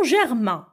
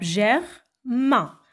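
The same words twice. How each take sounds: First: Said in the usual way. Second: "germain" broken in two, pause before "main"; "germain" as two separate beats, ger... main; split into syllables. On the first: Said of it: "combien y a-t-il de syllabes". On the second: Shown as a demonstration. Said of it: "deux syllabes".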